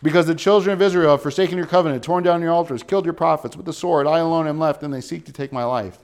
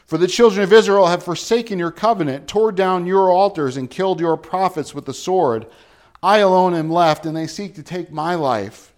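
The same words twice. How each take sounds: First: Repeated complaint. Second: Loud, anguished complaint, higher pitched; distressed. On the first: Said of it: "Didn't we hear this already?". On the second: A prophet pleading his despair to God, loud and anguished. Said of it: "Do you hear the distress in him?". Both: Acted.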